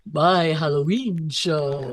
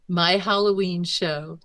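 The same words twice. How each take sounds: First: A light Deanna Troi impression, slow and drawn out; hint of Deanna Troi, said slowly. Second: Said in the usual way. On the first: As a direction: lightly voice Counselor Troi, stretching each word. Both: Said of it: "that's my Deanna Troi voice".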